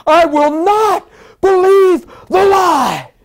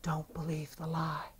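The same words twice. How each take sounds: First: Slow, high, full-force shout; roaring declaration. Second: Slow, very soft whisper. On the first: Sick man rising to defy the lie, shouting. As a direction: bellow each phrase in defiance. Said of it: "I don't even talk like this". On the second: Holy Spirit speaking to a sick man, whispering. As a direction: whisper it slowly, like a secret warning. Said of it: "Holy Spirit said in a whisper". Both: Retold or imitated.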